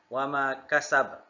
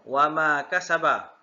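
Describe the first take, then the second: First: The last word ends on a bouncing consonant. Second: The last word ends with a vowel sound. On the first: The reader stops at this word. "Tapi kita akan berhenti" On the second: The reading continues into the next verse. "Kalau baca sambung"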